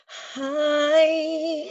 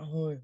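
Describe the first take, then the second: First: The pitch goes up high and bright. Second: The pitch stays flat and dull.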